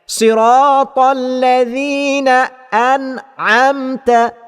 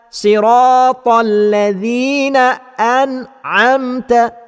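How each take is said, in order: No difference in how they are said.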